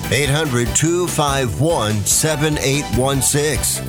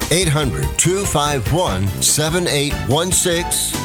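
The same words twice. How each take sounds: The two takes are said the same way.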